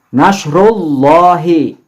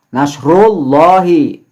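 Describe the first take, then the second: The two takes are said the same way.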